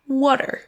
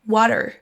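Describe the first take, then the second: First: It is said in an American accent. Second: It is said in an American accent.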